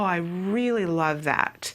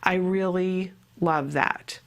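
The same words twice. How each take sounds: First: It sounds warm, lively and clearly sincere. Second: It sounds flat and possibly sarcastic. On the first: The speaker truly cares about it. "then you know that it's something that I really care about" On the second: It is unclear whether the speaker means it. "then you don't know, am I being sarcastic?"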